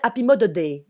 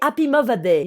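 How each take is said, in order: First: The 'th' in 'Mother' sounds like a d. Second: The 'th' in 'Mother' sounds like a v. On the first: "le T H c'est un D" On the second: "tu dois le prononcer comme un V"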